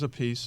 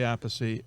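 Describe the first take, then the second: First: The name sounds like 'a piece'. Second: The name sounds like 'apathy'. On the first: This is how one brother says the name. "Carmine says a piece" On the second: This is how the speaker says his own name. "I say apathy"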